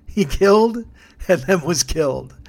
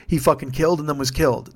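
First: Higher and louder, relishing the punchline; delighted, ringing repeat of his own epitaph; gleeful emphasis. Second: Said in the usual way. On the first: Real, not acted. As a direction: savor the irony, punch it up. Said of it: "how perfect is that".

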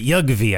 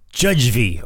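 First: Yugvi opening with a Y sound, YUG-vee; questioning Yugvi, like "yug-vee"; alternative pronunciation. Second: Judgvi opening with a J sound, like "judge"; tentative Judgvi with a hard English J; trying a pronunciation. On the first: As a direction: say Yugvi with Y for J and a hard g. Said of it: "or is it Yugvi?". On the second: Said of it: "tough name for us dumb Americans to pronounce". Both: Shown as a demonstration.

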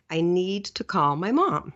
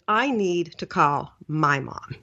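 First: Said in the usual way. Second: "I" appuyé, slow and deliberate; stress on I. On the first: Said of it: "I say the following to myself". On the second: Shown as a demonstration. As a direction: lean on "I need" as if it's your duty. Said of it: "Because in my mind, it was".

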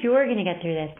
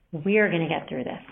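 First: You're leaned on, the lone one facing it; You're gets the weight, not we; stress on YOU'RE. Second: We're leaned on, the shared fight; we're gets the weight, together; stress on WE'RE. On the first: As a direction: press the word You're. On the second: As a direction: press the word we're. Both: Shown as a demonstration. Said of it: "the power of we".

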